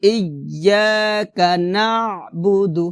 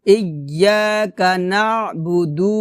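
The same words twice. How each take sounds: First: নাবুদু with brief final দু; quick final DU. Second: নাবুদু with final দু dragged out; wrong long DU. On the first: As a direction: release the last vowel of নাবুদু quickly. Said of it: "তাড়াতাড়ি বলতে হবে". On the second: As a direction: wrongly stretch the last vowel of নাবুদু. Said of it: "এভাবে হবে না". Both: Shown as a demonstration.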